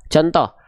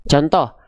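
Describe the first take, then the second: Both takes have the same delivery.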